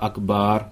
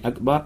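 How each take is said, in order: First: The vowel before the final r is lengthened. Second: The vowel before the final r is short. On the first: It means drums. The speaker calls it wrong. "а «Акбар», поскольку «Акбар» — это множественное число от слова «кабар»" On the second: It means greater. The speaker calls it right. "говорит не «Акбар»"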